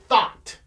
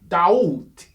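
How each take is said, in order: First: The name begins with a TH sound. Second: The name begins with a D sound. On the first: This is the Greek pronunciation. "So they said they more or less a T H sound" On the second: This is the original African pronunciation. "they couldn't say Daut because that's basically spelled D J H U T I"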